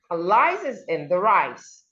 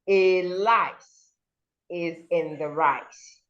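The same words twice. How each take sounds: First: The first word is a short weak 'uh' sound. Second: The first word sounds like the letter name 'ay'. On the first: The speaker calls it right. "you would say a lice, a, a" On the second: The speaker calls it wrong. "instead of saying"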